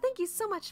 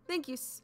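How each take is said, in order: First: It is said in a female character voice. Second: It is said in a male character voice.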